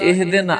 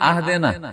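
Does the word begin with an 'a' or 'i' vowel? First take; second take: i; a. First: The word begins with an 'i' vowel. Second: The word begins with an 'a' vowel. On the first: The speaker calls it right. "ইহদিনা সিরাতাল মুস্তাকিম" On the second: The speaker calls it wrong. "ওয়া ফাতে হামজা ... আহদিনা যদি কেউ করে দেয়"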